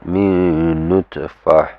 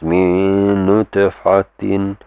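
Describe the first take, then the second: First: The last word ends cut off with 'h'. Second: The last word keeps its full ending, 'tin'. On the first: The recitation stops on this word. "if it's just this is the last word" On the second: The recitation continues after this word. "if it's gonna continue, you pronounce it as min nutfatin"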